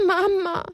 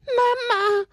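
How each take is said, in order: First: Pitiful Mama. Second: High tearful sob on Mama; sobbing Mama. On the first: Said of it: "ein klägliches". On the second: Little donkey sobbing for his mother, high tearful cry. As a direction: cry it out through tears. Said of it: "schluchzte er noch einmal". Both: Acted.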